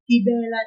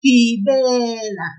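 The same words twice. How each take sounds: First: Said in the usual way. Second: Slow Gibela with a long drawn-out "be"; pulled second syllable. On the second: Shown as a demonstration. Teacher demonstrating the tip to learners, Gibela with "be" pulled long. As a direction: stretch the middle of Gibela, "gi-beee-la". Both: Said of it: "we will pull the second syllable".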